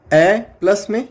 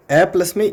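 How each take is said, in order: First: ए stretched and rising, then plus में; slow sound demo. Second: Said in the usual way. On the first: Shown as a demonstration. Teacher sounding out the ए of the diphthong slowly. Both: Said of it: "ये किसका sound है".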